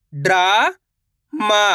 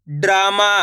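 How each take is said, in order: First: drama stretched very slowly; slow drawn-out. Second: Said in the usual way. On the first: Shown as a demonstration. Teacher sounding out drama for pupils, very slow. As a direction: lengthen every sound of drama.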